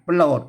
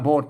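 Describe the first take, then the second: First: The word has a rolled r after the first consonant. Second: The word has no r sound after the first consonant. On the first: This is the Thai reading. "โปรดลั่นลิ้นเลยฮะ" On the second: This is the old Lanna reading. "โพดเสียงเอก"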